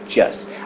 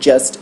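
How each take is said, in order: First: The final t sound is dropped. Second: The final t sound is clearly pronounced. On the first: "o T vai sumir" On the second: "em vez de just"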